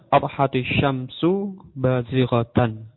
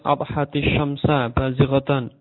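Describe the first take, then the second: First: The endings are -u and -an. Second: The endings are -a and -an. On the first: Subject is nominative and predicate is accusative. The speaker calls it right. "yang benar" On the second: The subject is wrongly put in the accusative case. The speaker calls it wrong. "ini juga salah, juga keliru"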